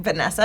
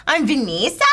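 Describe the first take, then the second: First: Said in the usual way. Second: Imitated New Zealand "Vanessa", middle vowel as ee; New Zealand accent. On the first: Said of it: "she was in New Zealand". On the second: New Zealand friend gives her name, New Zealand accent. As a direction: introduce yourself as a New Zealander. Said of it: "and she'd go".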